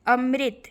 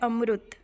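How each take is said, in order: First: The middle syllable sounds like ri. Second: The middle syllable sounds like ru. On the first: This is the Hindi way of saying it. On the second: This is the Odia way of saying it.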